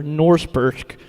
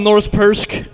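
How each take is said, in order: First: Lightly put-on bad American accent; worst American accent. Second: Said in the usual way. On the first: Shown as a demonstration. Reader deliberately botching a foreign name, worst American accent. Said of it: "in the worst American accent ever". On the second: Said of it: "I'm gonna say that".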